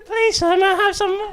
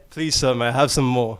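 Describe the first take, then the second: First: It is said in a high falsetto voice. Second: It is said in a normal speaking voice.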